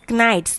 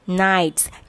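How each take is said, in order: First: The word begins with a pronounced K sound. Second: The word begins with no K sound. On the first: The speaker calls it wrong. "We should not pronounce it as knights" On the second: The speaker calls it right. "K is silent over here"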